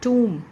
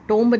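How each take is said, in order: First: It ends on m with no b. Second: It ends with an audible b sound. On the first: The speaker calls it right. "इसका pronunciation कुछ इस word के according होता है" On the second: The speaker calls it wrong. "टोम्ब नहीं है इसका"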